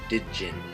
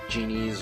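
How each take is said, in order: First: It starts with a separate D sound. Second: It starts directly with a J sound. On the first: The speaker calls it wrong. "you see D and then a J, you're like, oh, Digin" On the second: The speaker calls it right. "I want to make sure I'm pronouncing it right"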